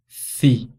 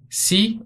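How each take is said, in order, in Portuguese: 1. A consoante tem um som de th lispado. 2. A consoante tem um som de S sibilante. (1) "o som interdental na Espanha" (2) "Antes de E e de I tem som de S"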